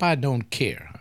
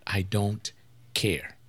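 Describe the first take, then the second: First: Said in the usual way. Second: "I don't" dropped quiet, a pause, then "care" set apart, low and soft; slow, quiet, deliberate "I don't... care"; emphasis on care. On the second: Shown as a demonstration. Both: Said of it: "I want to put emphasis on that".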